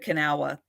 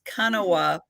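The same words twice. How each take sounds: First: The name is said with local American sounds. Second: The name is said with Japanese-like sounds. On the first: This is how people from the place itself say the name. The speaker calls it right. "because it's from West Virginia" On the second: This is how the speaker instinctively reads the name. The speaker calls it wrong. "how you would say it if it was Japanese"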